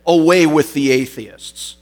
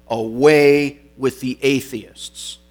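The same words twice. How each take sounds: First: Higher, much louder acted proclamation; defiant retort. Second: Slow, louder proclamation as if dictating it; retold command. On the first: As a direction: throw it forcefully back at the crowd. Polycarp turns it on pagan crowd. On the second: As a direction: dictate the denunciation, drawing it out. Governor dictates words to say.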